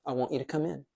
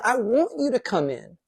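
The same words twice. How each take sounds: First: Tender invitation. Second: Pleading father. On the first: Father's invitation, softly. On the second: Father pleading with older son. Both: Retold or imitated.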